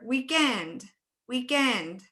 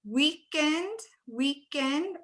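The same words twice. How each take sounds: First: "weekend" with END stretched and falling; exaggerated second-syllable stress. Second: "weekend" with WEEK punched, rising like a question; exaggerated first-syllable stress. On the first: Teacher offers students the alternative, END stressed in "weekend". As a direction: shift the weight onto END in "weekend". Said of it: "I really play around with it". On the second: Teacher playing with options for students, WEEK stressed in "weekend". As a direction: offer "weekend" higher, stress up front, questioning. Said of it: "You can exaggerate it a little".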